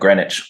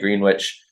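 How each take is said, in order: First: Some spelled letters are left silent. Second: Every letter is sounded just as spelled. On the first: This is how most people elsewhere say it. "instead of Greenwich, like most everyone else does around the world" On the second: This is the local way of saying it. "so we say Greenwich"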